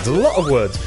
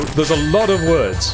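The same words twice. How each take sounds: First: The T in lot is a glottal stop. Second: The T in lot is clearly pronounced. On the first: This is how the speaker normally says it. "I kind of glottal stopped the T" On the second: Someone copying American speech said it. "But he would go"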